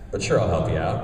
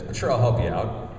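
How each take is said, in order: First: The line is strained, as if said while sitting down. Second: The line is read plainly, with no physical strain. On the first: The character speaks while doing the action. The speaker calls it right. "don't be afraid to say the line while sitting" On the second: The action happens separately from the line. The speaker calls it wrong. "the character says a line and then he sits down and then says"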